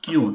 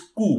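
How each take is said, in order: First: The letter is said like 'kyoo'. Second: The letter is said like 'koo'. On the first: The speaker calls it wrong. "make sure it is not Q" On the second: The speaker calls it right. "It is Ku"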